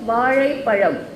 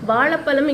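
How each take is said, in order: First: It is said in careful standard pronunciation. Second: It is said in casual everyday pronunciation. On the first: This is the proper form of the word. "சரியான word என்னது?" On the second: This is how people say it in everyday talk. "என்கின்றோம் பேச்சு புழக்கத்தில்"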